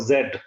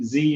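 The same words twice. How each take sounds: First: The letter name is said a non-American way. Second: The letter name is said the American way.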